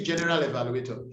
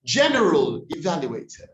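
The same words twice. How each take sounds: First: General evaluator rattled off with full vowels; common mispronunciation. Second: General evaluator with reduced vowels, deliberate; corrected pronunciation. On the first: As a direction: say general evaluator as JEN-e-ral e-va-lu-AY-tah. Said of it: "we say". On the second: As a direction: model general evaluator as JEN-rul ih-VAL-yoo-ay-tuh. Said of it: "we say general evaluator". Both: Shown as a demonstration.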